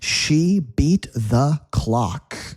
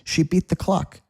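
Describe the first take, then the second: First: The sentence is said slowly and carefully. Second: The sentence is said quickly and naturally.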